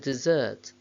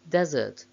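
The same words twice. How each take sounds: First: The stress is on the second syllable. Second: The stress is on the first syllable. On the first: It is used as a verb. "main stress of the verbs is on the second syllable" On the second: It is used as a noun. "main stress of the nouns is on the first syllable"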